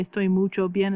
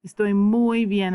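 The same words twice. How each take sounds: First: Mucho said where muy belongs, as the mistake; wrong version. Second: Muy stressed as the right word; correct version. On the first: Teacher shows students the wrong phrase, plainly. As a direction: say mucho bien as the error to avoid. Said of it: "Doesn't make a lot of sense". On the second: Teacher gives the correct phrase after the mistake. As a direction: lean on muy to show the fix. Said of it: "So estoy muy bien". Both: Shown as a demonstration.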